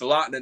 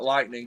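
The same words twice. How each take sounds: First: The final g sound is dropped. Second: The final g sound is pronounced. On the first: The speaker calls it right. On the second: The speaker calls it wrong.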